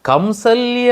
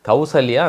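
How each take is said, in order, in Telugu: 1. మొదటి అక్షరం m శబ్దంతో ముగుస్తుంది. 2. మొదటి అక్షరం u శబ్దంతో ముగుస్తుంది. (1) "ఇక్కడ ఏమన్నది కంసల్య" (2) "కౌసల్య అనాలి"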